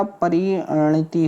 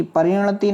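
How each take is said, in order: First: "परिणति" slow, with short final ti; correct "परिणति". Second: "परिणति" with a long final tee; wrong "परिणति". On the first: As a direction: spell out परिणति, last i short. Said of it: "छोटी की मात्रा". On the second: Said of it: "नहीं होता". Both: Shown as a demonstration.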